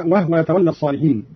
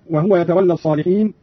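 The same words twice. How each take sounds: First: وهو said wahwa; vowelless h. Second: Said in the usual way. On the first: Shown as a demonstration. Teacher demonstrating Qalun's reading, وهو as wahwa. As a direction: close the h in وهو with no u. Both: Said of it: "بإسكان الهاء هكذا".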